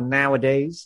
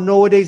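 First: The first syllable sounds like 'now'. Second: The first syllable sounds like 'no'. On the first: The speaker calls it right. "it's now, nowadays" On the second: The speaker calls it wrong. "It's not nowadays"

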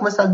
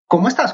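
First: It sounds like a quick routine greeting. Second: It sounds like a sincere, earnest question.

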